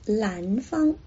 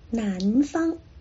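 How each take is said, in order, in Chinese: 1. 这个词以 l 音开头。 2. 这个词以 n 音开头。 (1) "发成南方" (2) "就把南方发成"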